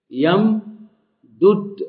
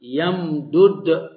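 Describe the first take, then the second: First: يمدد stretched very slowly with the vowel moved to the meem; slow demo of يمدد. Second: يمدد drawn out slowly, each sound clear; slow demo of يمدد. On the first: Teacher showing students the moved vowel in يمدد. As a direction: say يمدد very slowly so they hear the shift. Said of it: "نقلت حركة الدال الأولى". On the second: Grammar teacher demonstrating يمدد slowly. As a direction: spell out يمدد slowly for the students. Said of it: "فنقلت حركة الدال الأولى". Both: Shown as a demonstration.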